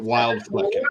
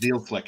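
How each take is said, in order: First: The name is said with an American pronunciation. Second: The name is said with a German pronunciation. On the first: This is how the family said it. The speaker calls it wrong. "we we would pronounce it" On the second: This is how locals really say it. The speaker calls it right. "actually pronounced"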